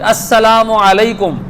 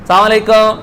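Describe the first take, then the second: First: The greeting is said fully with every syllable. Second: The greeting is said quickly with sounds dropped. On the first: It is said properly and with care. The speaker calls it right. "अस्सलामु अलैकुम ये अंदाज हो" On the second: It is said carelessly in a hurry. The speaker calls it wrong. "सलाम अलैकुम ये अंदाज नहीं होना चाहिए"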